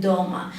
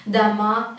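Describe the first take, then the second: First: "doma" stressed on the opening "do"; stress on first syllable. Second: "dama" stressed on the final "ma"; stress on last syllable. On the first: Teacher recapping the difference, "doma" stressed at the start. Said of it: "put the stress to the first syllable". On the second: Teacher recapping the difference, "dama" stressed on the end. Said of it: "if the stress goes to the last letter". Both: Shown as a demonstration.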